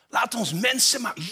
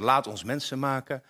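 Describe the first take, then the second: First: It is said in a lively, excited voice. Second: It is said in a flat, monotone voice. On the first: It expresses joyful surprise at a creative idea. The speaker calls it right. "Dit is waar de drie-eenheid zichzelf verrast in creativiteit" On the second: It is read as an ordinary, unremarkable statement. The speaker calls it wrong. "doen we monotoon. Ik geloof niet dat het zo hoort"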